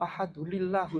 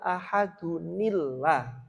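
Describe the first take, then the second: First: No linking n sound comes after ahadu. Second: A linking n sound comes after ahadu. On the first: The speaker calls it wrong. "anak-anak takmir itu bacanya kok" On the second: The speaker calls it right. "saya memang mengingatkan tapi bukan lillah"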